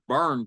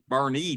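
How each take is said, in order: First: The name is said as one syllable, 'burn'. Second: The name is said as two syllables, 'bernie'. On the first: The speaker calls it wrong. "I thought it was Burn, Texas" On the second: The speaker calls it right. "but it's Bernie, Texas"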